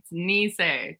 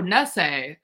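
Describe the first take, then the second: First: The first syllable sounds like 'knee'. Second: The first syllable sounds like 'ness'. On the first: The speaker calls it right. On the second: The speaker calls it wrong. "When people are like, oh, Nisei, I'm like, it's not Nestle Quick"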